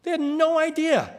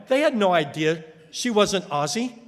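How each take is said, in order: First: "no" lifted high and hit hard; "They had NO idea", raised and stressed on no; emphatic repeat. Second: Said in the usual way. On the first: Real, not acted. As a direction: stress no, much higher in pitch.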